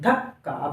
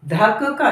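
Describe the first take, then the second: First: Said in the usual way. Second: धक्का with first क as a full syllable; split double consonant. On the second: Shown as a demonstration. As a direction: say धक्का as "dha-ka-kaa". (धक्का में पहले क को पूरा बोलते हुए) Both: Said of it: "धक्का नहीं".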